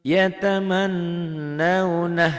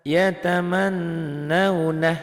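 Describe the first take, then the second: Both takes have the same delivery.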